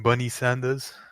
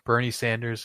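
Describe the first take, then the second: First: The R sound in the first name is dropped. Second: The R sound in the first name is pronounced.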